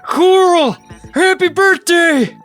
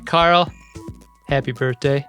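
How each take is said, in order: First: The name is yelled, drawn out like Walking Dead. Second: The name is said plainly, in a normal voice.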